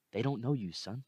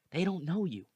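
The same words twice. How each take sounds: First: Said in the usual way. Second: "They don't know you" said much higher and stronger; emphatic repeat. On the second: Acted. Repeating the line to the student, much higher and insistent. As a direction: drive it home.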